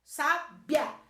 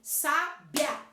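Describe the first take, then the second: First: The final i and a form one syllable. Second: The same.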